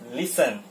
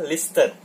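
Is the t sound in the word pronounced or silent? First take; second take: silent; pronounced. First: The t sound is silent. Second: The t sound is pronounced. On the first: The speaker calls it right. "Listen-nya dibaca listen" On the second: The speaker calls it wrong. "tidak dibaca listen"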